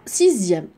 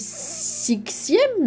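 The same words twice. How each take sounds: First: The x is sounded like a z. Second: The x is sounded like an s. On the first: The speaker calls it right. "la lettre X se prononce Z" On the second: The speaker calls it wrong. "Est-ce que je dis sixième? Non"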